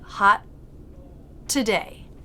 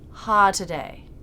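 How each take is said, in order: First: The T is a brief held stop of air. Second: The T is dropped with no stop of air. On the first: The speaker calls it right. "but hot today with a stop" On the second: The speaker calls it wrong. "So it's not ha today"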